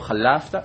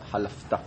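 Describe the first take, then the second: First: The stress falls before the last syllable. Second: The stress falls on the last syllable. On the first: The speaker calls it wrong. "לא חלפתא" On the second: The speaker calls it right. "אלא חלפתא, מלרע"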